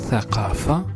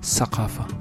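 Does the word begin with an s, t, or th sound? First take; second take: th; s. First: The word begins with a th sound. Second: The word begins with an s sound. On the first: This is the classical form. "Tha devient Ta" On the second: This is the Eastern dialect form. "dialectes orientaux où le Tha devient S"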